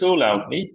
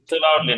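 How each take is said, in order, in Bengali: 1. 'too' শব্দটি টেনে ও stress দিয়ে বলা হয়। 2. 'too' শব্দটি সমতল ও ছোট করে বলা হয়। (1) "টান দিয়ে পড়বেন" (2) "টু লাউডলি না"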